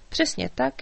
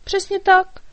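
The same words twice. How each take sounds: First: Said in the usual way. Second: High, loud little fairy cry; fairy's exclaim. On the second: A narrator's reading. Fairy cries out agreement to the dragon, high and loud. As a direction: shout "Přesně tak" high and bright. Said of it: "vykřikla Markétka".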